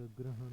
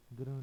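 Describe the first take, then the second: First: ग्रहण with clear h; correct form. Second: ग्रहण squeezed to graan; wrong form. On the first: Teacher giving the correction, ग्रहण with h sounded. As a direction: say ग्रहण as gra-han. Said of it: "होता है". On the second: Teacher showing learners the mistake, ग्रहण without h. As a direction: say ग्रहण with h dropped. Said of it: "नहीं होता". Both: Shown as a demonstration.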